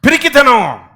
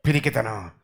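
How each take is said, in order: First: పిరికితనం high and loud. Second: పిరికితనం low and soft; quiet. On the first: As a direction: call it out. Word loud then soft. (గట్టిగా) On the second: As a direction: murmur it. Word soft. (మెల్లగా) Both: Real, not acted.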